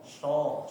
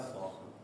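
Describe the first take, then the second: First: The consonant is pronounced like sh. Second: The consonant is pronounced like s. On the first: The speaker calls it wrong. "jangan keliru ya Bapak mengucapkan huruf so menjadi sho" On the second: The speaker calls it right. "Yang betul adalah so"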